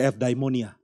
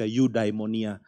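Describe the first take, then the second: First: It is pronounced the Greek way. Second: It is pronounced the English way. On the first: The speaker calls it right. "Harus baca eudaimonia" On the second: The speaker calls it wrong. "Itu pembacaan orang Inggris terhadap Yunani"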